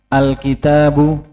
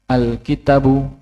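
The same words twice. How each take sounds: First: The vowel after 't' is held long. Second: The vowel after 't' is cut short. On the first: The speaker calls it right. "seharusnya alkitabu" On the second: The speaker calls it wrong. "penghilangan bacaan panjang"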